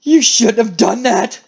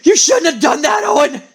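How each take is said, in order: First: Slow, held-back menace; restrained threat. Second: High, raspy angry outburst; exploding threat. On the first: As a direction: warn the betrayer slowly, holding it in. Acted threat, first held back. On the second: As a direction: let the threat burst out high and rough. Same threat, now bursting out. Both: Acted.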